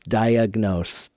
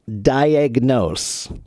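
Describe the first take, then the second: First: The first vowel sounds like a reduced uh. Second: The first vowel sounds like a full ah.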